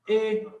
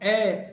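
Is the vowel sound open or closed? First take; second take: closed; open. First: The vowel is said closed, like 'ay'. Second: The vowel is said open, like 'eh'. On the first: This is how people in other regions name the letter. "em outras regiões do país, eles vão dizer que isso aqui é o E" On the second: This is how people in the Northeast name the letter. "É aberto"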